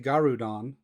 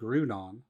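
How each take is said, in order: First: A vowel is inserted between the G and r. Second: The G and r are said together. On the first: It is a playful personal way of saying it. The speaker calls it wrong. "I always say Garudon. I think it's more fun to say it that way" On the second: It is the official way of saying it. The speaker calls it right. "I've been told it's called Groudon"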